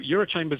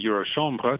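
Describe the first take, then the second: First: The name ends like the English word 'chambers'. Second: The name ends like the French word 'chambre'. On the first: The speaker calls it wrong. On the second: The speaker calls it right.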